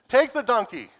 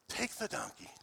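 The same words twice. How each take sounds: First: It is said in a full voice. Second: It is said in a whisper.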